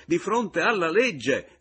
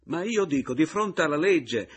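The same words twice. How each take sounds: First: Loud, high, slowed shout; the repeat, slower and emphatic. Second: Loud, high indignant cry; louder, pitched-up shout about the law. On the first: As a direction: hammer out each word of the repeat. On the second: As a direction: yell it at him in outrage. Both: Acted. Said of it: "gridò egli".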